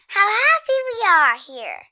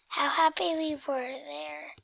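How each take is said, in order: First: It is said in a happy voice. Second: It is said in a sad voice.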